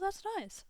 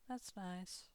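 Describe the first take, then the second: First: It is said with more confidence and warmth. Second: It is said in a plain, flat way. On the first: "adding a little more confidence" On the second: "a person saying"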